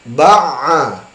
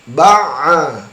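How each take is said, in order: Both takes have the same delivery.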